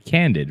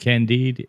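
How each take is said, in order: First: The word ends with a short 'did' sound. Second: The word ends with a long 'deed' sound. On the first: The speaker calls it wrong. "I guess I just mispronounced it my whole life" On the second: The speaker calls it right. "is it Candide?"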